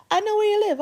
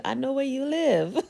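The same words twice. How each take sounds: First: Higher, louder, hammed-up threat; mock menace. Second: Chuckling through a playful threat; laughing. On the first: Teasing viewers with a mock-menacing threat. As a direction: play the creepy stalker for fun. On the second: Pretend. Teasing the viewers with a laugh.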